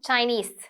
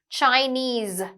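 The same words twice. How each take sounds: First: The final consonant is an s sound. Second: The final consonant is a z sound. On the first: The speaker calls it wrong. "not Chinese" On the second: The speaker calls it right.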